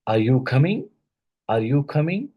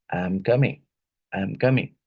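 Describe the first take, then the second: First: "coming" climbing steeply to a high end; rising intonation. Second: "coming" dropping in pitch at the end; falling intonation. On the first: Teacher showing students a question tune, rising intonation on "coming". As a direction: let the pitch rise right through "coming". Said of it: "like rising intonation". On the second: Teacher showing students a statement tune, falling intonation on "coming". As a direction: let the tune fall away on "coming". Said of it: "And falling intonation". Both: Shown as a demonstration.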